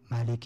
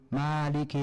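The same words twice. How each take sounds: First: The first vowel of the word is short. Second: The first vowel of the word is long.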